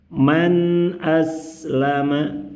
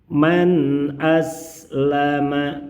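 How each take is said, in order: Both takes have the same delivery.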